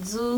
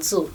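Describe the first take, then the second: First: "സു" as tsu, without a voiced d; earlier tsu reading. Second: "സു" as dzu, with a stressed d onset. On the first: Teacher recalls the earlier reading for learners, "സു" as voiceless tsu. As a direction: say "സു" with a voiceless ts onset. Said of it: "എന്ന് വായിച്ചല്ലോ നേരത്തെ". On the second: Teacher shows learners the changed reading, "സു" as stressed dzu. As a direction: lean on a d at the start of "സു": dzu. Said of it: "ഒരു ഡിക്ക് stress കൊടുത്തിട്ട്". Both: Shown as a demonstration.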